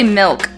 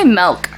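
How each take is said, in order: First: The vowel sounds like 'i', as in 'milk'. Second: The vowel sounds like 'e', as in 'melk'. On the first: "I don't say milk" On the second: "you say it with an E?"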